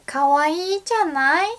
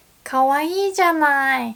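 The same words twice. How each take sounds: First: かわいいじゃない? higher pitched, rising at the end; feminine, rising かわいいじゃない?; rising question tune. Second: かわいいじゃない said fast, falling at the end; feminine tune. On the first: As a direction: ask かわいいじゃない? with a lift, higher. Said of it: "じゃない would sound feminine". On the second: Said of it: "this still sounds quite feminine". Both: Shown as a demonstration.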